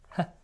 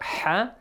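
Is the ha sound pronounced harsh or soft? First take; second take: soft; harsh. First: The ha sound is pronounced softly. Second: The ha sound is pronounced harshly. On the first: The speaker calls it right. "Ha has to be pronounced softly, it's just ha" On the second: The speaker calls it wrong. "not ha"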